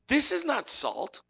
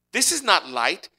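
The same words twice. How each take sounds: First: Is drawn out, slow and falling; This is not salt, the word is weighed slowly; stress on is, slow. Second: IS pressed with a rising tune; stress on is. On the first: Preacher to congregation, slow falling stress on is. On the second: Preacher to congregation, is stressed. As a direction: lean on the word is in This is not light. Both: Shown as a demonstration.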